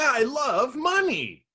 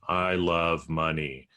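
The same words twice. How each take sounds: First: It is said in an excited, lively way. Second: It is said in a flat, bored way.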